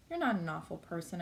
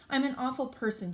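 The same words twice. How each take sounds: First: Softly. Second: Higher, mildly tearful confession; through tears. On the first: Justin comforts crying Olivia, softly. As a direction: reassure gently, without any push. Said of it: "I say softly". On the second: Olivia confesses to Justin, through understated tears. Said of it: "she says through her tears". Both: A narrator's reading.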